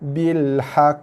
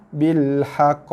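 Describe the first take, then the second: The two takes are said the same way.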